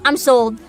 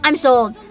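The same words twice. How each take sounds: The two takes are said the same way.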